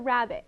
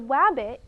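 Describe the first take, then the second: First: The first sound is a clear R sound. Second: The first sound is a W sound. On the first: The speaker calls it right. "clearly pronounce it" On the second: The speaker calls it wrong. "if your child says"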